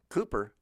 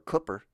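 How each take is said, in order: First: Cooper is said with a standard pronunciation. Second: Cooper is said with a regional American pronunciation.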